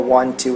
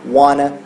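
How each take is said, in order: First: Both words are said fully and separately. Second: The words are reduced and blended together. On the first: The speaker calls it wrong. "A gente não fala want to" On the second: The speaker calls it right. "a gente fala wanna"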